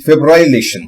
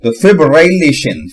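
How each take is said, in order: First: Said in the usual way. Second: फिब्रिलेशन said slowly and carefully; slow careful pronunciation. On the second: Shown as a demonstration. Learner slowly practising a hard word. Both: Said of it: "पहले क्या करूंगा".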